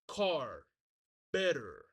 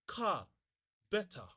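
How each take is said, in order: First: It has an American accent with throaty Rs. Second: It has a British accent without throaty Rs. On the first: "You see how I pronounce that R with my throat?" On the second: "when we use the British accent"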